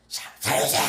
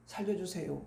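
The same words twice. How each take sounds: First: Strained, desperate cry for help. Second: Very soft, low, half-hearted plea; 힘없는 구조 요청. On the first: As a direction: shout for rescue with every last bit of strength. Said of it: "젖 먹던 힘을 다해서". (젖 먹던 힘까지 짜낸 절규) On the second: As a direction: plead for help far too quietly to be heard. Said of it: "이렇게 하면은". (힘없이 아주 작게) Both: Shown as a demonstration.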